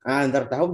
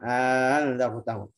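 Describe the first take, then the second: First: The second hamzah is eased, not lengthened. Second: The second hamzah becomes a long a vowel. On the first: The speaker calls it right. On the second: The speaker calls it wrong.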